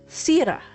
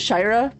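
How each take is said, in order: First: The name starts with an 's' sound. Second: The name starts with an 'sh' sound. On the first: This is the name's actual pronunciation. The speaker calls it right. "but it's Sira" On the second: This is how the speaker would naturally read it. The speaker calls it wrong. "I pronounce it Shira"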